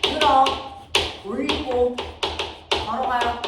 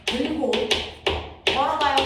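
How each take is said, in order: First: '들어', '올리고', '걸어가요' 사이마다 길게 쉬며 힘주어; 세 토막으로 뚝뚝 끊어 '들어 / 올리고 / 걸어가요'; 또박또박 끊어 제시. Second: '들고' 뒤에 길게 쉬고 '걸어가요'를 힘주어 말하기; '들고', '걸어가요'를 한 단어씩 따로 또박또박. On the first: ('들어'를 크게, '올리고'와 '걸어가요'도 따로따로 강조) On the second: ('들고'와 '걸어가요'를 뚝 끊어서 강조) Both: Shown as a demonstration. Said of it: "이게 중학교 내신에서 나오는 단어야".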